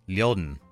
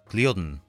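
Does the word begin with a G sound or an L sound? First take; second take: L sound; G sound. First: The word begins with an L sound. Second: The word begins with a G sound. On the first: This is the southern dialect form. "in the South it is said liodn" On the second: This is the northern dialect form. "in the North is gliodn"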